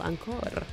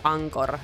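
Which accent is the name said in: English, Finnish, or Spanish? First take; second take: Spanish; Finnish. First: The name is said with a Spanish accent. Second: The name is said with a Finnish accent. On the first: "Spanish people" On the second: "I keep pronouncing it in a very Finnish way"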